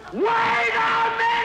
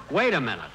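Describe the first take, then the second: First: A sudden, much higher, louder, slow yell that drags the words out; exasperated shout. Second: Said in the usual way. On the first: Real, not acted. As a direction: lose patience and bellow it out. Exasperated with the quartet.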